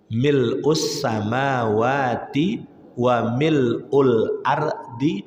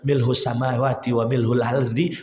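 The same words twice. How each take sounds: First: The hamzah is said as a glottal stop. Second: The hamzah is said as an h sound. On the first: The speaker calls it right. "Bacaan yang benar itu" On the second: The speaker calls it wrong. "Huruf hamzah itu jadi huruf H"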